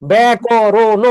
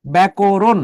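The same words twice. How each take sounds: First: ব্যাকরণ drawn out very slowly, final vowel sounded; ব্যাকরণ spelled out slowly as if with no hasanta; pronunciation without hasanta. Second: ব্যাকরণ said the everyday way, clipped at the end; ব্যাকরণ in everyday speech; natural pronunciation. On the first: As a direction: read ব্যাকরণ letter by letter, stretched and louder. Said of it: "হসন্ত না দিতেন ... এটাকে পড়তাম". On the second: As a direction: say ব্যাকরণ as people really say it. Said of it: "ব্যাকরণকে উচ্চারণ করলে". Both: Shown as a demonstration.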